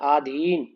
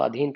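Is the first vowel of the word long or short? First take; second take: long; short. First: The first vowel is long. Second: The first vowel is short. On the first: The speaker calls it wrong. "हम बोल देते हैं आधीन, जबकि गलत है" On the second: The speaker calls it right. "उच्चारण में हमारा अधीन होता है"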